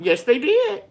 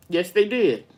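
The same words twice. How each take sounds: First: High, eager yes; emphatic agreement. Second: Said in the usual way. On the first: Real, not acted. Agreeing with a viewer about ancestors, eager and high. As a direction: jump up in pitch to agree wholeheartedly.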